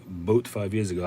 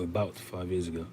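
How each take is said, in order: First: Boat said in place of about, first syllable dropped; about clipped to boat; misreading about as boat. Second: Said in the usual way. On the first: Retold or imitated. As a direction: read it as boat five years ago, like the first misreading. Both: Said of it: "I thought you were saying boat".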